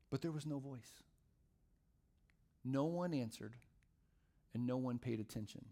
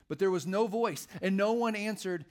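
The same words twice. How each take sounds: First: Softer and lower, with long pauses between phrases; hushed, solemn letdown; subdued scripture reading. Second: Louder, higher, with force on each NO; ringing pulpit emphasis; emphatic scripture reading. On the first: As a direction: let each phrase drop into silence. Rereads the failed outcome, subdued. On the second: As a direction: proclaim it up high and strong. Reads scripture climax, later repeated hushed. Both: A narrator's reading.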